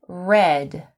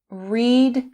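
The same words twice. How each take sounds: First: The word sounds like the colour 'red'. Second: The word does not sound like 'red'. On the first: It is the past simple form. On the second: It is the present or infinitive form.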